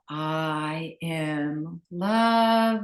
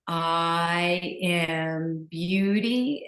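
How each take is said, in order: First: Slow, drawn-out affirmation on the out-breath. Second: Slow, drawn-out affirmation on the in-breath; soft, slow mantra. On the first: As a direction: let the words ride out on the exhale. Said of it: "and exhale". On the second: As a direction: stretch each word along with the breath. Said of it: "I'll share with you what you can also do is you can breathe in". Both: Shown as a demonstration.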